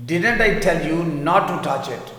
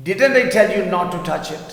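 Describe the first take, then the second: First: Slow, calmer repeat; teacher repeats the sentence slowly. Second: Slow, louder, a bit higher example read; teacher models the sentence slowly. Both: Shown as a demonstration. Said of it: "میں نے کہا تھا نا اسے ہاتھ مت لگانا".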